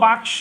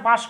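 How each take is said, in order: First: The k sound comes before the s sound. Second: The s sound comes before the k sound. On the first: This is the original form of the word. "বাক্স ছিল বাক্স, ক স স ক" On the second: The sounds have swapped places. "এগুলো উল্টায় হয়ে গেছে বাস্ক"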